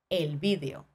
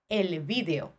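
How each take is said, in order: First: The stress falls on the first syllable, vi. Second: The same.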